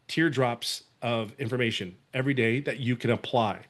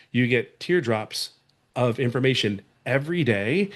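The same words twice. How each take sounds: First: Said in the usual way. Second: "You get teardrops" drawn out slowly, each word set apart; slow it down so it lands; slower repeat for emphasis. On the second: Shown as a demonstration. Coach repeating a key point to viewers, slow and stressed. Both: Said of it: "Let me say that again".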